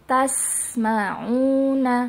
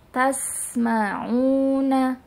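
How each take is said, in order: No difference in how they are said.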